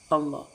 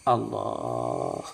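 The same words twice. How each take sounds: First: It is said at a normal pace and volume. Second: It is said more slowly and softly.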